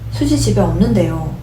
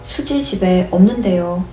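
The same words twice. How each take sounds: First: The pitch falls at the end. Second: The pitch rises at the end. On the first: "or you could tone it down" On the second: "It could be toned up, like as if it's a question"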